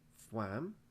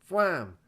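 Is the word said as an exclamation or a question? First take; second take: question; exclamation. First: It is said with a questioning, rising tune. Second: It is said sharply, as an exclamation. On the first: The name is being queried. The speaker calls it wrong. "not a question one" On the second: The name is an action word. The speaker calls it right. "With an exclamation mark"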